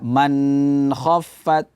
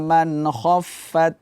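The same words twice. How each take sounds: First: The n is nasalized and held long. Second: The n is clear and short. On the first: The speaker calls it wrong. "Tidak kita baca man khaffat" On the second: The speaker calls it right. "Bacaannya adalah"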